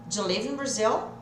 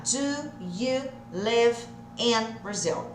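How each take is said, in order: First: "Do you live in Brazil?" with the words run together smoothly; linked together. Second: Slow, every word of "Do you live in Brazil?" said separately. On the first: Teacher showing students the joined version, linked together. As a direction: blend the words as in natural speech. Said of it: "Olha quando a gente junta". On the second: Teacher separating the words for students, slow and deliberate. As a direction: pull the words apart and say them slowly. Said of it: "Separadinho vai ficar". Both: Shown as a demonstration.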